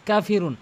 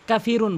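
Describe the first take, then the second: First: কাফিরুন with a short কা, one alif; কাফিরুন with the kaf held for one beat only; correct Kafirun. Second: কাফিরুন with কা stretched long; wrong Kafirun. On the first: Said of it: "এক আলিফ টেনে পড়তে হবে". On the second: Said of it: "অধিকাংশ লোক কাফিরুন বলে". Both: Shown as a demonstration.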